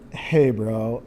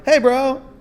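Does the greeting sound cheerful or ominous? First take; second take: ominous; cheerful. First: The greeting sounds heavy and ominous. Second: The greeting sounds light and cheerful. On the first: Trouble is coming in this conversation. "I'm like, here it comes" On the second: This conversation is going to be good. "I know it's going to be good"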